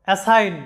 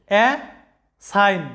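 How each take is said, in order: First: Said in the usual way. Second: uh, long pause, then sign; split into syllables. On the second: Shown as a demonstration. Teacher counting syllables for learners, uh and sign said apart. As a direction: break assign into two separate beats, uh and sign. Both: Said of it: "শব্দটার মধ্যে দুইটা syllable আছে".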